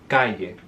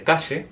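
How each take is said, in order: First: The double L sounds like y. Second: The double L sounds like sh. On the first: This is how speakers from Córdoba say it. "el Cordobés will say calle" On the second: This is how speakers from the Río de la Plata region say it. "the Rio Platense may say calle"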